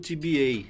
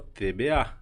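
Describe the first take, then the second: First: The letters use English letter names. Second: The letters use Dutch letter names. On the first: Many people translate it this way. "muita gente traduz para o T B A" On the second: This is how it is said in the Netherlands. "na Holanda se fala T B A"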